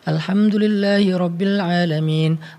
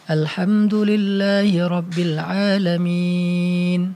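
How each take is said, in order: First: It is recited somewhat faster. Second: It is recited slowly and unhurriedly. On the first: It is read to finish a set amount in time. "Kita kan bacanya agak lebih cepat sedikit" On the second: It is read for reflection and therapy. "Itu namanya perlahan-lahan"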